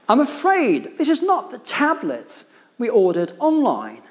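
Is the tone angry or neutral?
angry. The tone is angry and displeased.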